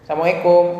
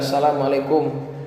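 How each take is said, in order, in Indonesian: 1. Bunyi L hilang dan tidak jelas. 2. Bunyi L diucapkan dengan jelas. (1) "itu bahaya" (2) "lamnya itu harus jelas"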